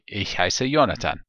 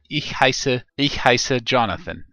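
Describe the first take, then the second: First: The name is pronounced the German way. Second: The name is pronounced the English way. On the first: "or as they say in Germany" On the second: "in my case"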